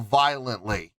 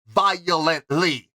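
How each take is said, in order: First: The syllables run together with little emphasis. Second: Each syllable is separately and strongly stressed. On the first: The speaker calls it wrong. "they just go violently" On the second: The speaker calls it right. "she puts those emphasis on each and every syllable"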